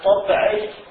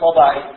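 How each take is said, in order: First: The b is followed by a short vowel. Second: The b has no vowel after it. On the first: It is formed from the word for nature, tabia. "إما بالتحريك الباء" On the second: It is formed from the word for temperament, tab. "وإما بتسكينها"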